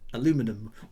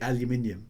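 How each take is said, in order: First: The word is said without the extra 'i' syllable. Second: The word is said with the extra 'i' syllable. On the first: This is the American form of the word. "as the Americans say" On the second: This is the British form of the word. "over here we say aluminium"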